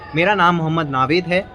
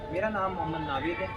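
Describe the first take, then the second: First: The voice sounds close and clearly audible. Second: The voice sounds distant and harder to hear. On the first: "आवाज pitch वही थी जो मैंने यहाँ पे थी" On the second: "पीछे जैसे जाता गया मैंने वही पिच रखी"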